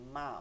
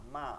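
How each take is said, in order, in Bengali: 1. m ধ্বনিটি বাইরের, শুকনো ঠোঁট দিয়ে তৈরি হয়। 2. m ধ্বনিটি বাইরের, শুকনো ঠোঁট দিয়ে তৈরি হয়।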